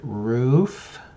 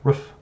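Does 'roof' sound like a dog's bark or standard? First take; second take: standard; dog-like. First: The word is said the standard way. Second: The word sounds like a dog's bark. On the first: "you're supposed to pronounce it roof" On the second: "I pronounced roof like a dog"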